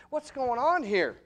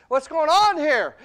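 First: Said in the usual way. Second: Much higher and louder, slow; preacher's shouted repeat; shouted question. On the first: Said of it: "repeats louder". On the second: Shown as a demonstration. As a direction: hit the repeat hard. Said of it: "repeated louder".

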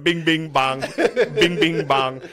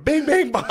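First: Lightly imitated chant, raised pitch; mock full-volume sound bite; Trump. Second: High, loud mimicked children's chant; high-pitched mock scream; kids screaming along. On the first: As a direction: chant it like a looping clip, a bit loud. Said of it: "it was just Trump on full volume going". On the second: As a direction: shriek it like taunting kids. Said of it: "everyone was screaming at him".

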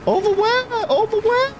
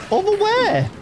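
First: High, baffled repeated question; scared horror game streamer. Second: Scared horror game streamer. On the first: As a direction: squeak it out confused. Confused at companion. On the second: Repeated, falling. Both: Real, not acted.

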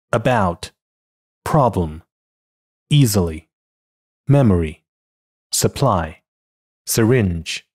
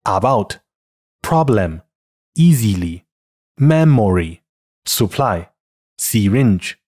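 First: About, problem, easily, memory, supply, syringe with relaxed schwa in weak syllables; unstressed schwa. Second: Learner's error: ah-bout, prob-lem, ee-zee-ly, mem-mo-ry, soo-ply, see-ringe; no schwa in about, problem, easily, memory, supply, syringe; spelling pronunciation. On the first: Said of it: "都基本读成这个呃". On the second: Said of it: "于是就会出现以下错误读音". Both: Shown as a demonstration.

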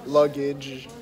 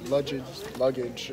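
First: "Luggage" said carefully with a hard g, as corrected; corrected pronunciation. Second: "luggage" slurred like lush-ij, stumbling; mispronounced. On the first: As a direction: say "Luggage" as lug-ij, fixing the earlier lush-ij. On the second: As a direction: mumble "luggage" with a soft zh sound. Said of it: "I don't know English that well". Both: Real, not acted.

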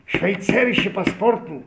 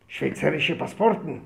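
First: High, loud and slow; loud repeat. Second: Said in the usual way. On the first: Retold or imitated. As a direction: spell out Schweizerische Passporten slowly and loudly. Officer repeats it loudly. (שווייצערישע פאספארטן הויך און לאנגזאם)

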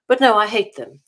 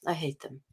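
First: Louder, emphatic "I hate them"; firm declaration. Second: Much softer, dropped under the breath; muttered repeat. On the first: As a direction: say it out, flatly and firmly. Firm restatement of hatred. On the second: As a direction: repeat it to yourself, almost inaudible. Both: Real, not acted.

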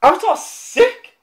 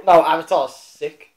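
First: Avatar's sick, rising high and slow with delight; excited. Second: No, Avatar's sick, lower, slow and firm; insistent. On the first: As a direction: gush about it, pitch climbing. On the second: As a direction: correct him flatly, no argument. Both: Real, not acted. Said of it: "I heard it was wank".

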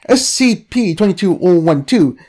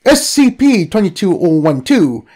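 The two takes are said the same way.

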